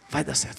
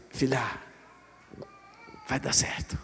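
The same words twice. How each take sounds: First: Low, soft spoken promise, now voiced; quiet reassurance. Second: Soft, breathy reassurance, almost a whisper; whispered comfort. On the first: Father softly assuring his daughter it will work out. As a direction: say it gently but aloud. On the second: Acted. Father whispering comfort to his daughter before the retest. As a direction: whisper it close like a promise.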